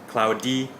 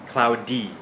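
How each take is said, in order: No difference in how they are said.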